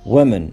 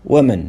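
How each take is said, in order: The two takes are said the same way.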